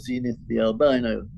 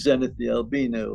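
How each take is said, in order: First: Albino is said the American way. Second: Albino is said in a non-American way.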